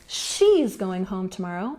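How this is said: The stress falls on the word she's. It clarifies which person is going. "I'm putting the emphasis on her"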